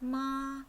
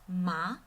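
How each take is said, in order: First: The pitch stays high and level. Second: The pitch rises from middle to high. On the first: "So it's flat and high" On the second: "goes out from middle pitch to high pitch"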